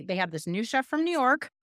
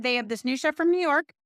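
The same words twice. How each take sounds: First: Said in the usual way. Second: Livelier retelling. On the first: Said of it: "So she said". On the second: Retold or imitated. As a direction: sell the news about the new chef. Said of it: "They said".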